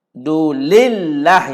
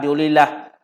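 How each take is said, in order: First: The l sound is held and doubled. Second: The l sound is short and single. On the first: The speaker calls it right. "yang betul tuan-tuan. Ada sabdu" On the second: The speaker calls it wrong. "kalau tidak bersabdu mungkin disebut"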